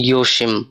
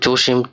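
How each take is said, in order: First: The name begins with a Y sound. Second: The name begins with a J sound. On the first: "জার্মানিতে বলা হবে ইয়োশিম" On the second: "নাম যদি হয় জোশিম"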